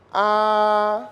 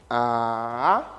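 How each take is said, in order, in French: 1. Le ton reste haut et plat. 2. Le ton descend, puis remonte. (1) "C'est un ton qui est plat" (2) "ça descend et ça remonte"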